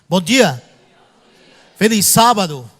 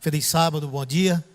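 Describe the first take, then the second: First: It is said loudly and strongly. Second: It is said softly and plainly.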